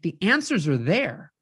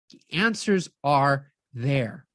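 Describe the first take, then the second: First: Said in the usual way. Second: "The answers are there" said slowly, lower and drawn out; weighty slow repeat of "The answers are there". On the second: Shown as a demonstration.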